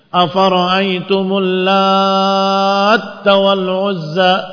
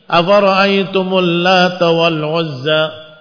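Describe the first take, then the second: First: The t is doubled after a lengthened vowel. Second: The t is single after a short vowel. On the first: The word means one who kneads. "Ini juga dibaca demikian karena taknya bertasydid" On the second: The word is the feminine of god. "takfif di huruf ta"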